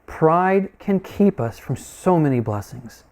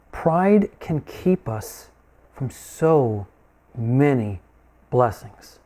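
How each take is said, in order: First: Slow, joined-up "Pride can keep us from so many blessings"; emphatic slow restatement. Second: Slow "Pride can keep us", then pauses around "so", "many", "blessings"; emphatic pauses. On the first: Preacher asking them to listen, slow unbroken emphatic restatement. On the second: Preacher driving home pride's cost, word-by-word emphatic pauses. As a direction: break off "so", "many", "blessings" one by one, falling lower. Key point broken up for emphasis. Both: Real, not acted.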